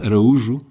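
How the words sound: The name is said with Portuguese pronunciation. "Araújo is the Portuguese pronunciation"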